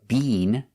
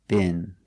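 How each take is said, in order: First: It has a long E vowel, British style. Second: It has a short I vowel, American style.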